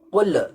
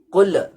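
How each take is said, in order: The two takes are said the same way.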